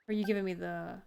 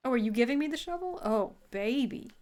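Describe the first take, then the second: First: Said in the usual way. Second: Excited. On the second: Real, not acted. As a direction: gush with delight. Excited at the game's gift.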